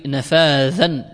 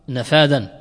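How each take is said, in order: First: "نفاذا" with a voiced th, nafaadhan; with a dh sound. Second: "نفاذا" said with a hard d, nafaadan; with a d sound. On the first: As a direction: put the tongue between the teeth for the dh in "نفاذا". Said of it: "بالذال". ("نفاذا" بذال واضحة) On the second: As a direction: make the consonant in "نفاذا" a plain d. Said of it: "نفاذا بالذال". ("نفاذا" بالدال لا بالذال) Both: Shown as a demonstration.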